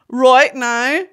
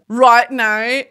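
First: It is said in a Northern Irish accent. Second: It is said in an Australian accent.

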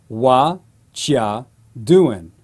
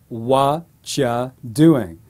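The two takes are said the same way.

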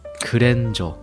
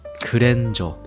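First: It is pronounced with Korean sounds. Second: It is pronounced with Korean sounds.

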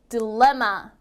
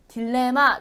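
First: The second syllable is clearly stressed. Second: The second syllable is not clearly stressed. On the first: The speaker calls it right. "여기도 레에 강세가 있어서" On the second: The speaker calls it wrong. "제가 이랬나요? 아니죠"

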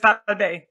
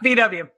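First: The letters are said the German way. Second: The letters are said the English way.

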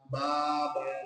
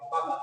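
First: The vowels are stretched out long. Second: The vowels are short and said quickly. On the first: The speaker calls it wrong. "এভাবে টানলেন ... ভুল হলো" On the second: The speaker calls it right. "এটা তো দ্রুত বলে ফেলা যায়"

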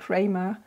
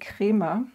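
First: The name is pronounced the English way. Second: The name is pronounced the German way. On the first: The speaker calls it wrong. "I keep saying Kremer" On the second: The speaker calls it right. "the name is actually Kremer. That's the German pronunciation"

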